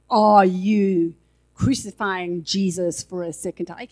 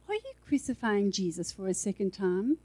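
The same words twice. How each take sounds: First: It is said in an accusing, guilt-inducing tone. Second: It is said in a gentle, non-accusing tone. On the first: The listener is being made to feel guilty. The speaker calls it wrong. "He won't say it like that" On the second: The listener is corrected without being made to feel guilty. The speaker calls it right. "He'll say"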